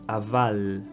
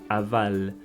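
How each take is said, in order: Both takes have the same delivery.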